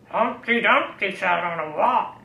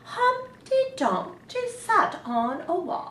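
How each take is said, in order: First: It is said in a growly pirate voice. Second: It is said in a grand royal voice.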